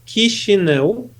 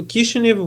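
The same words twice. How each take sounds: First: The name is said in its Romanian form. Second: The name is said in its Russian form. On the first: This is the name used today. "It's Kishinev" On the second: This is the name's Russian reading. "would be the Russian uh, reading of the name"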